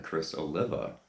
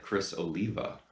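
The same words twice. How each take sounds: First: "Oliva" with a short i, oh-LIV-a; old mispronunciation. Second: "Oliva" with a long ee, oh-LEE-va; "Oliva" rhyming with diva; correct pronunciation. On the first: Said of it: "I always said [name]". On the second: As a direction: say "Oliva" with stressed LEE in the middle. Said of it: "how to correctly pronounce". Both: Shown as a demonstration.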